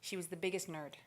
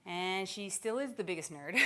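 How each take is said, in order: First: Said in the usual way. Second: "is" stressed, teasingly, before a laugh. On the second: Real, not acted. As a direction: lean on "is" to insist it's still true. Present set against past, then laugh.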